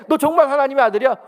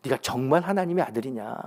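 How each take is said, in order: First: Loud, high taunting Satan; mocking Satan. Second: Said in the usual way. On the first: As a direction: jeer it up high and loud like the tempter. Preacher mocks Satan's taunting question. (높고 크게 비웃듯 묻는 사탄) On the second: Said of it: "반복적으로 사용하는 단어가 있습니다".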